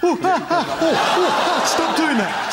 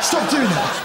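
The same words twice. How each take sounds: First: High, loud, laughing squeals of pretend pain; mock pain squeals. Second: Said in the usual way. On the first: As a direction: squeal as the turkey pecks you.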